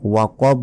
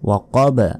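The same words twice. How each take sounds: First: The final consonant stops plainly without a bounce. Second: The final consonant is released with a bounce. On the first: The speaker calls it wrong. "এখানে ওয়াকব বললেও হবে না" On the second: The speaker calls it right. "শেষে ধাক্কা দিবেন অবশ্যই"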